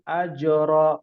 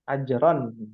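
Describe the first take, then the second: First: The word ends on a lengthened a vowel. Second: The word ends with a clear n sound. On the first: The reader stops at this word. "Kalau berhenti jadi mat iwat" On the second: The reading continues into the next word. "kalau bersambung jadi izhar halki"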